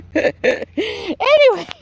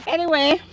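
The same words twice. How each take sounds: First: Long, high, stretched "Anyway"; drawn-out transition. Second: Said in the usual way. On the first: Real, not acted. Gardener moving on after laughing, drawn-out and high.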